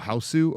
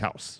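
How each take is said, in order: First: The word ends with an extra added vowel. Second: The word ends plainly with no added vowel. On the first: It copies a non-native speaker's pronunciation. The speaker calls it wrong. "how someone who's attempting to speak English is trying to pronounce it" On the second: It is the plain English word. The speaker calls it right. "the word is house"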